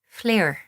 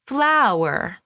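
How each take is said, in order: First: The vowel is small, relaxed and melodic. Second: The vowel is wide and open with lots of space. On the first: "with an Irish accent, it's very small and it's very relaxed and melodic ... if we were to make that smaller, becomes" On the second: "As a standard American. An English speaker, sometimes there's an emphasis on this sound ... There's a great deal of space in the mouth"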